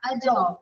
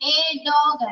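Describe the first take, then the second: First: The article sounds like a short 'uh'. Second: The article sounds like a full 'ay'. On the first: The speaker calls it right. "ആ ആ എന്ന് പറയണം" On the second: The speaker calls it wrong. "എ dog അല്ല"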